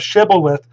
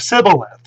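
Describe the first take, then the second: First: The word begins with an 'sh' sound. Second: The word begins with an 's' sound. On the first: The speaker is a Gileadite. The speaker calls it right. "instead of shibboleth" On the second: The speaker is an Ephraimite. The speaker calls it wrong. "the Ephraimites could not pronounce the shin"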